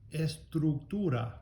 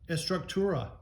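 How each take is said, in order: First: It is said with Spanish vowels and sounds. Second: It is said with an American English accent. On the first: The speaker calls it right. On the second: The speaker calls it wrong.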